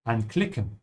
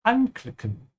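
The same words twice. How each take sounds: First: Anklicken with the prefix an- unstressed; wrong stress. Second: Anklicken with the an- prefix punched high; stress on an. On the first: Teacher showing learners the wrong stress on anklicken. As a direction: slide over the an in anklicken. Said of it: "So always say". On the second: Teacher showing learners the right stress on anklicken. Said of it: "the prefix should be emphasized". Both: Shown as a demonstration.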